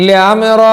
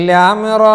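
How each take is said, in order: No difference in how they are said.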